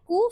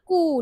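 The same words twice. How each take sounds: First: Said in the usual way. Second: कू with the ऊ drawn out; long vowel. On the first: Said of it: "फिर मैंने बोला कू". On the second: Shown as a demonstration. Teacher contrasting short and long sound, कू stretched. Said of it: "long sound".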